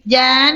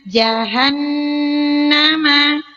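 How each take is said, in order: First: The h sound is weakened and nearly disappears. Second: The h sound is pronounced clearly and distinctly. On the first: The speaker calls it wrong. "jangan sampai kita bunyikan begini nih" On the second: The speaker calls it right. "Bunyi haknya dikasih jelas"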